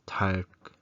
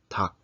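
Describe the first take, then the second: First: The syllable ends with an r before k. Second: The syllable ends with only a k sound. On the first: The speaker calls it wrong. "not tark or something like that" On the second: The speaker calls it right. "kiok is the leading sound. So it becomes tak"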